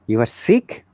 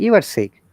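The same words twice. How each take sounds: First: The voice rises at the end. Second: The voice falls at the end. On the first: It is a question. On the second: It is a statement.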